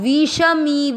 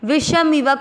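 First: The vowels are drawn out long. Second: The vowels are kept short. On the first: The speaker calls it wrong. "नहीं करना है" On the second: The speaker calls it right. "विषमिव दोनों मात्रा छोटी"

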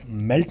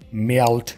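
First: The final t is weak and not released. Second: The final t is clearly released with a burst. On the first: The speaker calls it wrong. "मेल्ट नहीं बोलें" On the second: The speaker calls it right. "टी की आवाज़ फट जाए तो क्या ही बात है"

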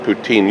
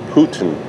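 First: The word sounds like poo-teen, ending in teen. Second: The word sounds like the name Putin. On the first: This is how English speakers say it. "we're English. We call it poutine" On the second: This is how it is said in Quebec. "in Quebec, they call it Putin"

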